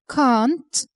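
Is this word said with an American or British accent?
British. It is said with a British accent. "the British pronounce it a"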